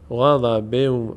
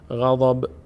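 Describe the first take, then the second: First: The ending merges into a following w sound. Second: The word ends on a bare final consonant. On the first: The reading continues into the next word. "به جای نون دیگه واو باید تلفظ بشه" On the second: The reading stops at this word. "با ساکن میشه غضب"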